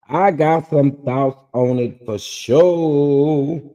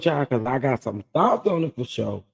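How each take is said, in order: First: "I got some thoughts on it for sure" said slower and louder, leaning on "I"; slow emphatic repeat. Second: Said in the usual way. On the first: Shown as a demonstration. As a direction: drag it out slowly, pressing hard on "I".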